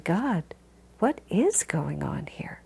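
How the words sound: It is said in a sincere, searching tone. The speaker is genuinely seeking understanding. "one is the quest"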